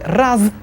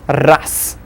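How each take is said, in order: First: The final consonant is voiced. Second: The final consonant is voiceless. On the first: The speaker calls it wrong. "We see раз" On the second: The speaker calls it right. "we'll pronounce it as"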